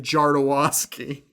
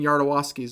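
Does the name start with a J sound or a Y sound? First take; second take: J sound; Y sound. First: The name begins with a J sound. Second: The name begins with a Y sound. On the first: The speaker calls it wrong. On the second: The speaker calls it right.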